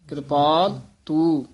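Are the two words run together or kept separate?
separate. The two words are kept clearly separate. The speaker calls it right. "ਸਾਰੇ ਪਦ ਨਖੇਰ ਕੇ ਪੜਨੇ ਹਨ"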